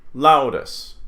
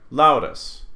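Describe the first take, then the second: No difference in how they are said.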